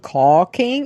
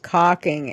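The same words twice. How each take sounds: First: The word is said with the standard 'caulk' vowel. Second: The word is said sounding like 'cocking'. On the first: The speaker calls it right. "the way I pronounced it, wasn't caulking" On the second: The speaker calls it wrong. "it was caulking, and it did not have the same pronunciation because it's basically the male genitalia"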